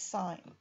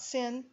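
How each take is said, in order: First: It is said like the word 'sign'. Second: It is said like the word 'sin'. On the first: The speaker calls it right. "this is sine" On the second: The speaker calls it wrong. "This is not sin"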